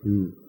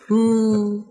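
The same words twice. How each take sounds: First: The hmm is said with a low pitch. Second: The hmm is said with a high pitch. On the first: "saya bisa pakai intonasi gini" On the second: "Ketika nadanya tinggi itu ya. Insightful"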